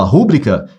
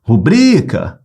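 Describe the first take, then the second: First: "rúbrica" as a proparoxytone, beat on RÚ; mispronounced "rúbrica", RÚ-bri-ca; wrong stress RÚbrica. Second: "Rubrica" with BRI stretched and punched; emphatic model "Rubrica", ru-BRIII-ca; correct stress ruBRIca. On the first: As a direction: punch the first syllable of "rúbrica". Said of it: "você pronunciou como proparoxítona". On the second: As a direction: draw out the middle syllable of "Rubrica". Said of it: "Essa é a pronúncia correta". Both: Shown as a demonstration.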